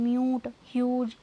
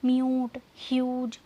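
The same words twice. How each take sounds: First: म्यूट and ह्यूज stretched slowly, each yoo sound drawn out; slow sound demo. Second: Said in the usual way. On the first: Shown as a demonstration. Teacher showing students the yoo sound, slow and drawn out. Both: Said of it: "आ रही है ना यू की sound".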